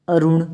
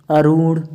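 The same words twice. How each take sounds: First: अरुण with a quick "run"; short u. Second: अरुण with a stretched "roon"; long oo. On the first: Teacher showing short u in अरुण. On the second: Teacher contrasting spellings, long oo in अरुण. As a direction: say अरुण as "aroon". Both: Shown as a demonstration. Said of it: "छोटे ऊ और बड़े ऊ".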